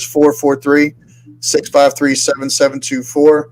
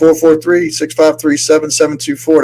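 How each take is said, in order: First: The number is said slowly and carefully. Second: The number is said at a quick pace.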